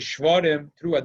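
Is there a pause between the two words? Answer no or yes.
yes. There is a break between the two words. The two calls are treated as separate. The speaker calls it wrong. "They don't say"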